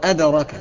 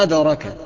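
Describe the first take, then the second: No difference in how they are said.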